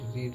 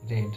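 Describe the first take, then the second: First: The vowel is long, like 'reed'. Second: The vowel is short, like 'red'. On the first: "क्या एक ही तरह से होता है इसका उच्चारण?" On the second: "या फिर रीड, रेड, रेड"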